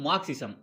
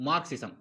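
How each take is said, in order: Both takes have the same delivery.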